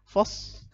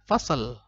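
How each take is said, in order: First: The final l is not sounded. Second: The final l is bounced with an echo. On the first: "lamnya nggak kebaca" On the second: "jangan dibaca fasal. Bukan, kenapa? Karena fasal itu eh, bukan qalqalah"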